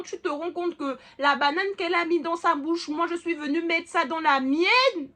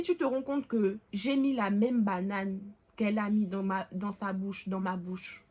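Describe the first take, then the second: First: Higher, louder, indignant version. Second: Sweetly. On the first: Daughter telling her mother, louder and indignant. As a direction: push the outrage up. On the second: Daughter telling her mother gently and sweetly. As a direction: say it sweetly, like a child. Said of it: "de manière mignonne". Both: Retold or imitated.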